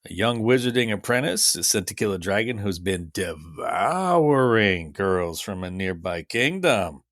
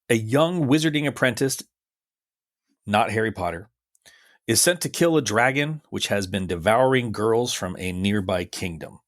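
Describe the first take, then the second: First: It is read in a suggestive, innuendo-laden way. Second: It is read in a plain, neutral way.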